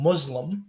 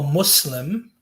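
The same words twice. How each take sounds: First: The middle consonant is a buzzing Z sound. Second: The middle consonant is a hissing S sound. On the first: The person is an oppressor. The speaker calls it wrong. "with the Z sound" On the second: The person submits their will to God. The speaker calls it right. "you're supposed to pronounce it with like an S"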